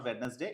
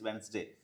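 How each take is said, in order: First: A d sound is pronounced in the middle. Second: No d sound is heard in the middle. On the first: The speaker calls it wrong. "చాలా మంది వెడ్నెస్డే అంటారు, it's not వెడ్నెస్డే" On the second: The speaker calls it right. "డి silent అండి"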